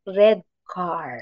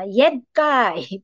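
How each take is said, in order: First: The R sounds are clearly pronounced. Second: The R sounds are replaced, like baby talk. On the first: An adult models the word for the child. The speaker calls it right. "let the child hear our correct pronunciation" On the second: A small child cannot yet say the R. The speaker calls it wrong. "Hindi niya ma-pronounce yung red, yung R"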